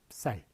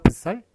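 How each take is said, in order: First: The b is a brief closed-lip sound before s. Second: The b is released as its own full syllable. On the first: The speaker calls it right. "종성으로 발음을 하는 거예요. 그러니까 입을 다물고" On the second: The speaker calls it wrong. "이렇게 발음했을까요? 그게 아니라"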